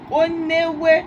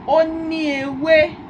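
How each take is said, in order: First: The i vowel is dropped, giving onewe. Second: The i vowel is pronounced before ewe. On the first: "omitimos a fonema i, que fica newe" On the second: "se eu falo assim"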